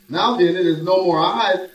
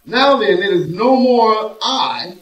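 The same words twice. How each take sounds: First: Said in the usual way. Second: "no" stressed, "Now then, it is no more I" drawn out slowly; slow emphatic reading. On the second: Shown as a demonstration. Preacher rereads the verse to the church, slow and emphatic on "no". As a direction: lean on "no" and stretch the verse slowly. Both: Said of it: "this is where the revelation begins to manifest".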